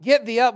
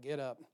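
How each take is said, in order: First: Loud "Get thee up", punched hard; pastor's own forceful reading, loud; booming command. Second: A soft, offhand "Get up"; softer, casual reading of God's words; mild mock command. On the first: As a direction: bellow "Get thee up" the way he reads it. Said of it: "that's how I read it". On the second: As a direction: toss off "Get up" quietly, as others might read it. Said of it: "I just see you like". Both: Shown as a demonstration.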